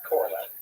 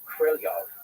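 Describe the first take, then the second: First: The name is said the American way. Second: The name is said the Russian way. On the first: The speaker calls it wrong. "than it is Korolev" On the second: The speaker calls it right. "from listening to native speakers, is closer to Krylyov"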